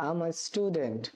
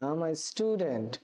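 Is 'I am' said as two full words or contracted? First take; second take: contracted; contracted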